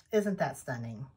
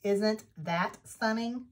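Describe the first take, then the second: First: Hushed awe. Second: Said in the usual way. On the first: Real, not acted. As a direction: lower and much softer, almost breathless. Repeats the question, hushed.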